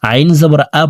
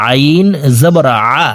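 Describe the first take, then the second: First: Quick আইন জবর আ with a plain hamza-like আ; আইন misread as hamza. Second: Careful আইন জবর আ with the ayn made mid-throat. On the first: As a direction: show the common slip, আ with no throat squeeze. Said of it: "হামজার উচ্চারণ করে থাকি". (আ হামজার মতো, দ্রুত উচ্চারণ) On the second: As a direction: squeeze আ from the middle of the throat. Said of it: "হলকের মধ্যখান থেকে এইভাবে". (আ হলকের মধ্যখান থেকে উচ্চারণ) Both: Shown as a demonstration.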